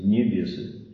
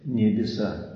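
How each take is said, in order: First: The word ends in a 'y' sound. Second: The word ends in an 'a' sound.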